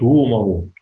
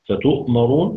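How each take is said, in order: First: A long vowel replaces the glottal stop. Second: A glottal stop follows the first vowel. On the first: This is the reading when stopping on the word. "يبدله حرف مد مجانس لحركة ما قبله" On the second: This is the reading with the hamza kept. "سهل همزه"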